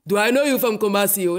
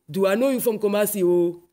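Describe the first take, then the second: First: Mock Ghanaian accent, a louder repeat with a changed voice; imitating Ghanaian accent, louder. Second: Mock Ghanaian accent, quick and light; imitating Ghanaian accent. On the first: Ghanaian stranger calling after her in the street, louder mock Ghanaian accent. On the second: Ghanaian stranger stopping her in the street, light mock Ghanaian accent. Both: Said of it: "they stop me and they say".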